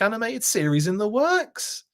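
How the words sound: It is said as a question, rising. It is asked as a question. The speaker calls it right. "I should have said it with as a question"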